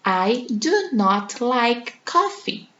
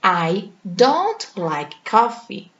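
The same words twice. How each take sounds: First: Slow, "do not" as two separate words; teacher modelling the full formal sentence. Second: Slow, "don't" squeezed into one syllable; teacher modelling the informal short form; contracted form. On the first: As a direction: give every word its own beat, "do" then "not". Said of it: "a frase completa". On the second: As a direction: fold "don't" into one quick word. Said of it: "E a forma abreviada?". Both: Shown as a demonstration.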